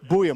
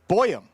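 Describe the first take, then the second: First: The first syllable sounds like 'boo'. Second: The first syllable sounds like 'boy'. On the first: The speaker calls it right. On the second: The speaker calls it wrong.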